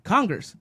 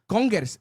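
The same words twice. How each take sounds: First: It is said in a plain English accent. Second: It is said in a Spanish accent. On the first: The listener does not understand the word. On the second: The listener understands the word.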